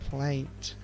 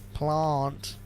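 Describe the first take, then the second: First: It is said in a South Australian accent. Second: It is said in the speaker's usual accent.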